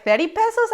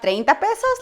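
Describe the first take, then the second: First: "Thirty pesos" repeated in English, very high and louder; "Thirty pesos" as a shrill shocked question; English translation. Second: "treinta pesos" said in Spanish, much higher, in disbelief; Spanish number. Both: Retold or imitated.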